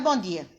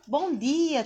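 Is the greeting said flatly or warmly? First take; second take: flatly; warmly. First: The greeting is said flatly, without warmth. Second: The greeting is said warmly, with a smile.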